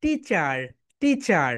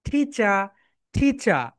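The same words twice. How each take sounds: First: American "টিচার" with the final r sounded; American accent. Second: British "টিচার" ending in open "cha"; British accent. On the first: Teacher shows the class the other sound, American accent. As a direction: say "টিচার" American-style, ending in "char". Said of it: "And American sound". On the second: Teacher leads everyone in repeating, British accent. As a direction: drill "টিচার" in British style, no final r. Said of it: "British sound হচ্ছে টিচার". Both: Shown as a demonstration.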